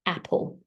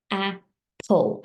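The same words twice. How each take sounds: First: Said in the usual way. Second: AP, then PULL after a gap; apple broken slowly in two, falling at the end; split into syllables. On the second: Shown as a demonstration. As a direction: sound out apple as two separate beats. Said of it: "I tapped my wrist for a".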